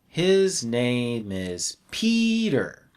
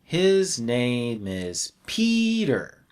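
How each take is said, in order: First: The word Peter carries the strongest stress. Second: The word Peter carries the strongest stress.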